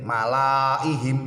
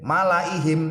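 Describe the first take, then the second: First: The vowel after the l is long. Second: The vowel after the l is short. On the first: The speaker calls it wrong. "tidak boleh" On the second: The speaker calls it right. "dibaca pendek"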